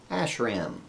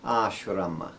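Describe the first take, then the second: First: The word ends on a consonant, no final vowel. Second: The word ends with a final vowel sound. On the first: The speaker calls it wrong. "We hear Westerners say ashram, and this would not be right" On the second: The speaker calls it right. "So instead we say ashrama"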